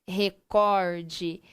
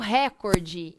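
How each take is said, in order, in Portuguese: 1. A tônica está na segunda sílaba, cor. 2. A tônica está na primeira sílaba, re. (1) "eu vou dar ênfase na sílaba cor e não ênfase na sílaba ré" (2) "não é o fulano bateu o recorde"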